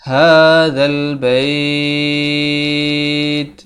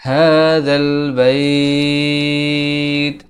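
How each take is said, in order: Both takes have the same delivery.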